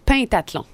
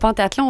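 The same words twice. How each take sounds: First: The first vowel sounds like 'pain'. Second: The first vowel sounds like 'pan'. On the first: The speaker calls it right. "Mentionné pain comme le pain" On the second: The speaker calls it wrong. "moi j'avais l'habitude aussi de dire le pentathlon"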